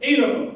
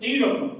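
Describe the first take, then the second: No difference in how they are said.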